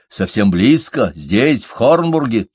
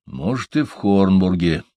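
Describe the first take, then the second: First: Louder, insistent, rising pitch on the place name; insistent questioning. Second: Pondering, at an ordinary pitch and level; thoughtful murmur. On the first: Строри presses his friends about the nearby power, insistent. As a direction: press for an answer, urgently. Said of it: "не унимался Строри". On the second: Торин weighs the suggestion to himself, thoughtful. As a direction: mull it over, half to yourself. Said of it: "задумчиво пробормотал Торин". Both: A narrator's reading.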